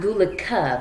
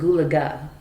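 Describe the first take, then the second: First: The last consonant is a K sound. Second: The last consonant is a G sound. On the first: The speaker calls it wrong. "not Gulaka" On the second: The speaker calls it right. "but Gulaga"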